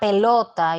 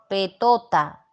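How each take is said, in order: First: The second consonant is an l sound. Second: The second consonant is a t sound. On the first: The speaker calls it right. "la palabra pelota" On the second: The speaker calls it wrong. "el niño no puede articular bien"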